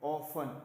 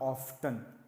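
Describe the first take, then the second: First: The t sound is silent in the word. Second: The t sound is pronounced in the word. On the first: The speaker calls it right. "टी silent है please" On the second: The speaker calls it wrong. "Not ऑफ्टन"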